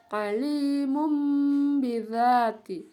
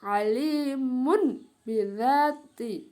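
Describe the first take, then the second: First: ALIMUM BIDZATI slow, long hummed m into b; iklab reading. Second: ALIMUN BIDZATI slow, n sounded before b; as written. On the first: Teacher showing how it is read, m hummed. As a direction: hold the final m of ALIMUM into BIDZATI. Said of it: "Ya, dibaca". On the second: Teacher reading the written form, n unchanged. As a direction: keep a clear n ending ALIMUN before BIDZATI. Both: Shown as a demonstration.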